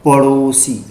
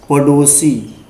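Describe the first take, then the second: First: पड़ोसी with a flicked ṛ; correct flap. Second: पड़ोसी with a hard retroflex stop ḍ; stop-consonant reading. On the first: Teacher giving the right reading, पड़ोसी with flapped ṛ. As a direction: say पड़ोसी as paṛosi, tongue flapping lightly. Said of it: "लेकिन होता क्या है". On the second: Teacher repeating the mistaken reading, पड़ोसी with hard ḍ. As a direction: say पड़ोसी as paḍosi, tongue stopping. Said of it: "क्या हो जाएगा". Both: Shown as a demonstration.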